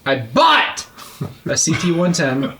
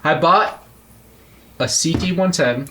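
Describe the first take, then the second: First: The word bought is said much louder. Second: The word bought is said at normal loudness.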